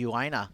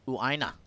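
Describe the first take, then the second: First: The name is said with an Australian pronunciation. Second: The name is said with a Hawaiian pronunciation. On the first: The speaker calls it wrong. "the Australian accent" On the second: The speaker calls it right. "In Hawaii, you'd call that"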